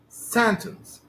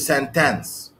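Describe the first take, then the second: First: The stress is on the first syllable. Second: The stress is on the second syllable. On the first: The speaker calls it right. "If the stress in this word falls on the first syllable" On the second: The speaker calls it wrong. "It can be on the second syllable as well. No... This is mispronunciation"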